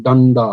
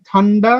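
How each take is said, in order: First: Low, unaspirated ডা opening ডান্ডা; deep voiced sound. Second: ঠা opening ঠান্ডা with a puff of air; aspirated sound. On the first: Teacher contrasts two sounds, deep voiced onset. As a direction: drop the voice on ডান্ডা, no breath puff. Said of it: "আর একটু গভীর কণ্ঠ শোনায়". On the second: Teacher contrasts two sounds, aspirated onset. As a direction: begin ঠান্ডা on a breathed-out ঠ. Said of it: "অর্থাৎ ঠান্ডা". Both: Shown as a demonstration.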